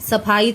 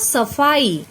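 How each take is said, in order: First: The middle consonant is an aspirated p. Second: The middle consonant is an f sound. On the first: The speaker calls it wrong. "सफाई तो कुछ नहीं होता" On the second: The speaker calls it right. "फ के नीचे नुक्ता लगाया तो बन गया सफाई"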